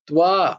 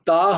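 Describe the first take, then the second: First: The t is followed by a w sound. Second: The t is followed directly by the vowel. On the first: The speaker calls it right. "তয় বয়ে আকারটা হবে ত্বা" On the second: The speaker calls it wrong. "তা হবে না কিন্তু"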